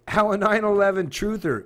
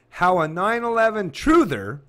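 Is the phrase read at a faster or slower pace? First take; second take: faster; slower. First: The phrase is read at a faster pace. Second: The phrase is read at a slower pace.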